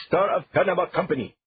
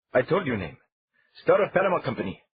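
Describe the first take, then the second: First: Put-on high, loud accented "Star of Panama Company", syllables spat; spitting each syllable. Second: High, loud, every syllable of "Star of Panama Company" spat out; spitting each syllable. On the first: Captain says the company name again, spitting syllables. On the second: Acted. Captain repeats the company name, spitting syllables. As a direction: hammer each syllable with spit. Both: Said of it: "emphasizing syllables with spit".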